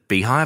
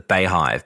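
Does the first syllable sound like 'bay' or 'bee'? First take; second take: bee; bay. First: The first syllable sounds like 'bee'. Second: The first syllable sounds like 'bay'. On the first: "is it the beehive" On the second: "it's written B-E-Y hive, like bayhive"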